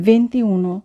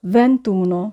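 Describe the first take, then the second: First: ভেন্তিউনো with the i kept, "vinti-uno"; wrong unjoined twenty-one. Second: ভেন্তুনো with no i, "ven-TU-no"; correct elided twenty-one. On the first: Teacher quotes learners' twenty-one, ভেন্তিউনো in four syllables. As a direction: keep ti and u apart in ভেন্তিউনো. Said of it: "অনেকেই". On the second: Teacher corrects learners, ভেন্তুনো joined as "ven-TU-no". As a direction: run ভেন্তুনো together in three syllables. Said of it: "আসলে উচ্চারণ হবে". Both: Shown as a demonstration.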